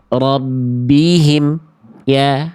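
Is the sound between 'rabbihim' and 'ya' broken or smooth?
broken. The sound is jerked and cut after the m. The speaker calls it wrong.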